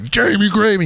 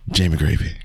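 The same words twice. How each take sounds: First: The name is said loudly and boldly. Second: The name is said quietly and tentatively. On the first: The speaker announces the name with full confidence. The speaker calls it wrong. "I didn't want to be all loud" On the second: The speaker is unsure the name is right. The speaker calls it right. "because I was making sure that I was saying it right"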